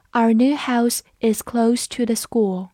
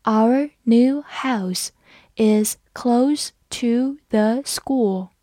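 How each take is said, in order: First: Said in the usual way. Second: "Our new house is close to the school" read very slowly; slow, careful model reading; slow teacher demo read. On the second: Shown as a demonstration. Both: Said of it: "我们慢读一遍".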